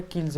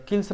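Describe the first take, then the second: First: "किल्स" ending in a voiced z. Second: "किल्स" ending in a voiceless s. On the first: Teacher correcting the reading, "किल्स" with a z ending. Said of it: "किल्स पढ़ते हैं". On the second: Teacher showing what not to read, "किल्स" with an s ending. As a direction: say "किल्स" as kils, with a hissed final s. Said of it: "किल्स नहीं पढ़ते हैं". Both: Shown as a demonstration.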